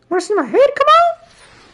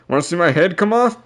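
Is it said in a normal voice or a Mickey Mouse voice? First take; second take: Mickey Mouse; normal voice. First: It is said in a put-on Mickey Mouse voice. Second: It is said in a normal narrating voice.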